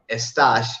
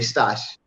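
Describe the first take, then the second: First: The initial e sound is clearly pronounced. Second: The initial e sound is dropped entirely. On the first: "instead of saying estás" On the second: "you say stash"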